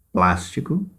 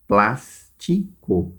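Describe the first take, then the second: First: Said in the usual way. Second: "Plástico" slowly split into three syllables, with pauses. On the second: Shown as a demonstration. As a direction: break "Plástico" up as plás, ti, co. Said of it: "são três sílabas".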